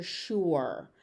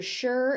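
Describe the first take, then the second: First: Sure as "shoor"; second variant. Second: Sure as "sher"; first variant. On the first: Teacher on the other form you may hear, sure said "shoor". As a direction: say "sure" with an oo vowel. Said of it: "and you may hear sure". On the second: Teacher on one form you may hear, sure said "sher". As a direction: rhyme "sure" with "her". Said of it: "You may hear sure". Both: Shown as a demonstration.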